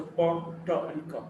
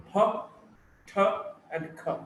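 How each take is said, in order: First: "p, t, and k" without a puff of air; unaspirated. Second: "p, t, and k" with a puff of air; aspirated. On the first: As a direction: hold back the breath on "p, t, and k". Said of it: "If it is elsewhere". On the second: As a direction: release "p, t, and k" with audible aspiration. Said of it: "are aspirated". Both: Shown as a demonstration.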